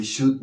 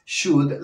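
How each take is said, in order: First: "should" with a sounded L; slow "should", every letter L-U-D voiced; L pronounced. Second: "should" with no L sound; silent L. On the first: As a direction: say "should" wrongly, L heard before the D. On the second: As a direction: say "should" as "shud". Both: Shown as a demonstration. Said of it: "la L no se pronuncia".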